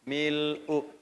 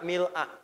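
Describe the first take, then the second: First: The word ends with a 'u' vowel. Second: The word ends with an 'a' vowel. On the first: "tulisannya sama-sama begini" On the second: "Bisa dibaca juga a"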